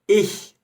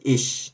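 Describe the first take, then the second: First: It ends in a soft palatal hissing sound. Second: It ends in an 'sh' sound. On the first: The speaker calls it right. "Quando eu falei ich" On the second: The speaker calls it wrong. "eu não disse ich. Não é som de X"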